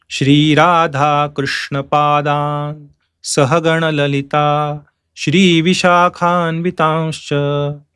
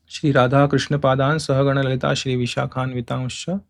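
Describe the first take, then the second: First: Slow, stretched chant with clear breaks; chanted, linger on every long vowel; chanting in meter. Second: Soft, low run-through without pauses; quiet recall. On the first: Shown as a demonstration. Teacher finishes the metered demonstration, chanting slowly. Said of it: "it can be chanted like this". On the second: Real, not acted. Teacher checks the last line, reciting softly. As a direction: recite it lightly to yourself.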